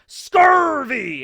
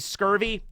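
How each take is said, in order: First: It is said in an exaggerated pirate voice. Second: It is said in an ordinary plain voice. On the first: The speaker calls it right. "the doctor does have to pronounce it as scurvy" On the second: The speaker calls it wrong. "if they just say scurvy, they're not a real doctor"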